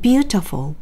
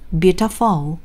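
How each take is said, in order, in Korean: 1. 강세는 첫 번째 음절에 있어요. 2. 강세는 세 번째 음절에 있어요. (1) "첫 번째 모음인 U의 강세가 찍혀 있어요 ... 세게 읽으면서 살짝 음도 높아요" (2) "만약에 세 번째 모음인 어에 붙잖아요"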